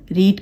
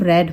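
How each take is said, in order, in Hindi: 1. स्वर लंबा है, जैसे 'reed' में। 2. स्वर छोटा है, जैसे 'red' में। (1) "रीड रीड का" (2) "जो पास्ट होता है वो रेड होता है"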